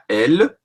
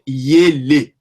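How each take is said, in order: First: It starts with a plain open e vowel. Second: It starts with a y glide before the vowel. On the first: The speaker calls it wrong. "ce n'est pas elle" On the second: The speaker calls it right. "mais c'est yele"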